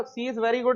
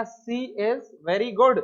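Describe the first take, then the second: First: Said in the usual way. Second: Very slow, word by word: "She is very good"; slow model reading. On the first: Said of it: "यहाँ पर". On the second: Shown as a demonstration. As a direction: read it out slowly for the class. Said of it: "मैंने कहा".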